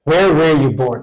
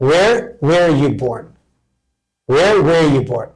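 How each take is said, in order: First: Said in the usual way. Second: Every word drawn out; very slow model. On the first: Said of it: "normal-speed take". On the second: Shown as a demonstration. Teacher repeating the question for students, very slow. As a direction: spell it out slowly in speech. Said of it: "slow demo after normal take".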